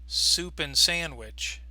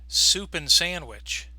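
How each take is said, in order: The two takes are said the same way.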